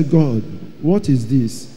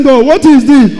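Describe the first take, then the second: First: Lower, softer and slow, stunned; awed murmur. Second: Higher and louder, pressing; urgent question. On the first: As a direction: ask God quietly, in awe. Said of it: "I say". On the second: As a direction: demand an answer from God. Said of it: "when I asked him". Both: Retold or imitated.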